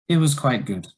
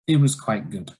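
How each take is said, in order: First: The voice falls in pitch across the phrase. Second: The voice falls in pitch across the phrase.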